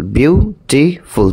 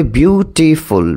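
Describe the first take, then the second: First: beautiful split very slowly into বিউ, টি, ফুল with gaps; slower, more segmented beautiful, pausing between syllables. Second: beautiful slowly parted into বিউ, টি, ফুল; slow teacherly beautiful, each syllable clear. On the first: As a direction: break beautiful into three fully separate beats. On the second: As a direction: say beautiful in three measured beats. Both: Shown as a demonstration. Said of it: "three syllables".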